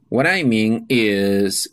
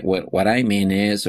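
First: Slow, deliberate model phrase; slow teacher demo of "What I mean is". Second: Said in the usual way. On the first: Shown as a demonstration. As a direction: lay out "What I mean is" slowly for learners. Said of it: "For clarifying the meaning is". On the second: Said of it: "you can say".

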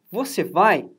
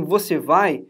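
First: "vai" lifted and curved as a question; question intonation. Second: "vai" set down as a low, falling statement; statement intonation. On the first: Teacher contrasts asking with affirming, question intonation. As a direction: ask "Você vai" with a questioning swing on "vai". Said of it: "se eu quero perguntar". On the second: Teacher shows students how to affirm it, statement intonation. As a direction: state "Você vai" with a settled fall on "vai". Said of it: "Se eu quero dizer assim". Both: Shown as a demonstration.

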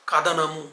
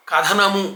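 First: కథనము as ka-DA-namu, voiced unaspirated d; plain da. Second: కథనము with breathy th, ka-THA-namu; careful model కథనము meaning narration; aspirated tha. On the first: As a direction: say d in place of థ in కథనము. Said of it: "కథనము అంటే యుద్ధము". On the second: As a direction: puff the థ in కథనము. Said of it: "కథనము అంటే చెప్పటం". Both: Shown as a demonstration.

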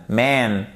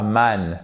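First: MAN with long open English A; correct English vowel. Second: MAN with a short French-like A; wrong vowel. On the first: Teacher corrects the word, English short A. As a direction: stretch MAN from the back of the mouth. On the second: Teacher shows the vowel to avoid, French-like A. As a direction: say MAN with a front, plain French A. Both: Shown as a demonstration. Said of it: "et pas man".

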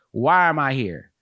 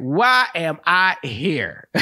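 First: Said in the usual way. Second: Slow, drawn-out exasperation; hammed-up, slow existential complaint; exasperated worker. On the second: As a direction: stretch out every word in mock despair. Repeats worker's question, drawn out.

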